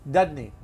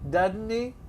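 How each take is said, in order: First: It is said fast, with sounds run together. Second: It is said slowly, with each word clear. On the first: "This is called connected speech or fast English" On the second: "I'll do it slowly"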